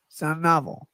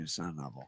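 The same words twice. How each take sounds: First: Said in the usual way. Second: Muttered low aside. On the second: Real, not acted. Muttered repeat of own correction.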